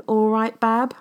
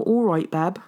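First: A terrible Midlands "all right, Bab?", higher and louder with a rising question; Midlands accent. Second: "all right, Bab." retried in a hammed-up Midlands accent, falling like a statement, louder; second go at a bad Midlands greeting. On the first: Retold or imitated. Greeting her darling Danny in a mock Midlands accent. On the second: Retrying a mock Midlands greeting to Danny, falling. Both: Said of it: "my really terrible, uh, Midlands accent".

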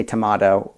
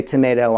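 First: "tomato" said to-MAH-toh; tomato, British. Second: "tomato" said to-MAY-doh; tomato, American. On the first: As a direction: say "tomato" with a broad AH in the middle. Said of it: "I say tomato". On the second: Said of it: "you say tomato". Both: Shown as a demonstration.

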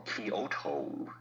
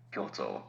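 First: Kyoto drawn out slowly as ky-o-to, three syllables; wrong Kyoto. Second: Kyoto as two syllables, kyo then to; right Kyoto. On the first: Host correcting listeners, slow wrong Kyoto. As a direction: stretch Kyoto the English way. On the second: Host correcting listeners, proper Kyoto. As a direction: say Kyoto briskly, kyo as one sound. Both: Shown as a demonstration. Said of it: "should be".

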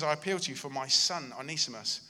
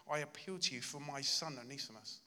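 First: "I appeal to you" called out loud and hard; loud insistent plea to Philemon; forceful appeal. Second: A softly pleading "I appeal to you"; tender plea to a friend; quiet heartfelt appeal. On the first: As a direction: hammer the plea home. Preacher repeats Paul's plea. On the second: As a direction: ask gently, from the heart. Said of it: "this heartfelt cry". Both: Retold or imitated.

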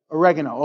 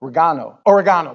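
First: Said in the usual way. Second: Imitated English "Oregano", stressed on the GAH; English accent. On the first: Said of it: "captain says oregano". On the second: Pastor imitating a TV chef, English accent. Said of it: "he says it with an English accent".

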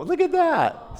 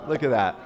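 First: High, squealing look at that; proud uncle gushing over a photo; delighted exclaim. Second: Said in the usual way. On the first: Real, not acted. Showing photo of newborn niece.

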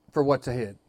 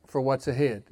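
No difference in how they are said.

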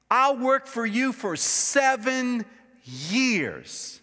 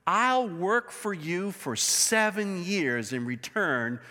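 First: "I'll work for you for seven years" slowed right down, higher, each word weighted; slow emphatic repeat. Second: Said in the usual way. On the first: Shown as a demonstration. Preacher to congregation, repeating Jacob's vow, slow and emphatic. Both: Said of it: "just catch this".

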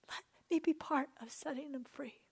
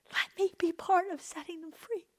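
First: Whispered prayer, breath only. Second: Said in the usual way. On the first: Real, not acted. Preacher praying to God for freedom, whispering. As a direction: hush it to God, barely a breath. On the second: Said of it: "prayer to God".

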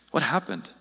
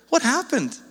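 First: What happened dropped low and soft, falling away; soft sad question. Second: High, bewildered What happened, pitch lifted on What; bewildered outcry. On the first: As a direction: ask it quietly, almost to yourself. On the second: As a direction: cry it out in disbelief at the church. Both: Retold or imitated. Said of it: "And so he's like".

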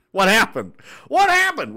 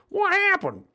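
First: Loud, jumping higher on the repeat; mock deaf shout. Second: Very high squeaky "what happened"; mock deaf yelp. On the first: Joking that ears are ringing, mock deaf shout. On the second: Repeating the ringing-ears joke, high mock yelp. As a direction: pipe it up high as if deafened.

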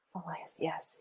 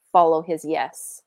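First: Much softer, almost whispered; barely voiced reminder; hushed self-talk. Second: Said in the usual way. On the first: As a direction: repeat it to yourself under your breath. Repeats it to herself, daunted.

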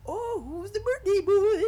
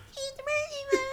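First: High, drawn-out clown voice; loud, squealing clown greeting a kid. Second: Very high squeal of mockery; mocking cousins. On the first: Retold or imitated. Clown greets the birthday kid, high clown voice. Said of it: "and the clown". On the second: Cousins tease the kid about the clown, mocking squeal. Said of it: "And my cousins are like".

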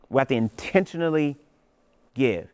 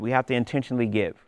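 First: "intentionally" stressed, with a pause before "give"; slowed-down repeat hitting "intentionally"; slow emphatic restatement. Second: Said in the usual way. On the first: Shown as a demonstration. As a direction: lean on "intentionally", then land "give" after a beat.

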